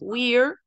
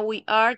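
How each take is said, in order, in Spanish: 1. Se dice como una sola sílaba contraída. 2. Se dice como dos palabras completas y separadas. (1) "tenemos we're" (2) "Para we are"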